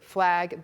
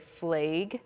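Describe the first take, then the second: First: The vowel sounds like a neutral American accent. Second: The vowel sounds like a North Dakota accent. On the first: "instead of flag" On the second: "they'd say flag"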